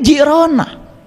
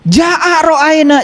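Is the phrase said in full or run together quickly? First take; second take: run together; full. First: The syllables are said fast and run together. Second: Each syllable is said slowly and in full.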